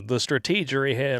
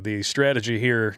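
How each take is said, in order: First: "strategy" said as struh-TEE-juh-ree; comic mispronunciation. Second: Said in the usual way. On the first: Shown as a demonstration. Host correcting himself for a joke, "strategy" as struh-TEE-juh-ree. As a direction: stretch "strategy" to four syllables, stressing TEE.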